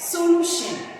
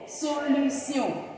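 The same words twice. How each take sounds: First: The ending sounds like 'shun'. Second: The ending sounds like 'see-on'. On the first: This is the English pronunciation. "English will pronounce this word as solution" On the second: This is the French pronunciation. "the French will go solution"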